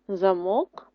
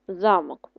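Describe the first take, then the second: First: The stress is on the second syllable. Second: The stress is on the first syllable. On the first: It means a lock for closing something. "наголос на другий склад" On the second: It means a castle or fortress. "наголос на перший"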